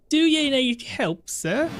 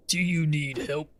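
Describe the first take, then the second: First: High, slow put-on woman's voice; horrible female voice attempt. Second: Mock NPC voice. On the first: Gamer voicing a female NPC, pitched up and slow. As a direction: squeak it out as a bad lady voice. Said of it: "That's a horrible voice". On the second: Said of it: "I don't know why Arna sounds like that".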